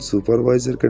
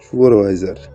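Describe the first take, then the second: First: The word is pronounced in the standard way. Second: The word is pronounced in a distorted way. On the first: This is the proper job title. The speaker calls it right. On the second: This is how the old watchman mangled the title. The speaker calls it wrong.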